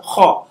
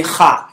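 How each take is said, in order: First: HA said as throaty "khaw"; correct rounded vowel. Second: HA with an open "ah" vowel; wrong vowel. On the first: Teacher reminds class of the right sound, HA as "khaw". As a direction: round HA towards "aw". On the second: Teacher shows class the mistaken sound, HA with "ah". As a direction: say HA with "ah", not "aw". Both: Shown as a demonstration. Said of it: "Because we can't say ha".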